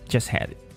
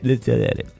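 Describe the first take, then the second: First: The three words run together like one word. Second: The words are even more blurred and throaty. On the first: "các bạn nghe người ta nói nó giống như là một chữ" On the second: "họ nói còn mờ hơn như thế này"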